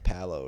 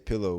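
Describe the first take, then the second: First: The word is said with an odd first vowel. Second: The word is said with its usual vowels.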